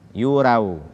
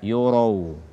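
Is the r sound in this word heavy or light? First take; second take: light; heavy. First: The r sound is light and thin. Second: The r sound is heavy and thick. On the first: The speaker calls it wrong. "membaca ro dengan tipis" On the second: The speaker calls it right.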